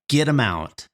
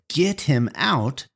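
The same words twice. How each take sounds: First: The words run together and the h is dropped. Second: Each word is said separately with the h sound.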